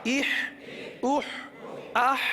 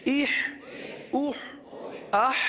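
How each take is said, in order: No difference in how they are said.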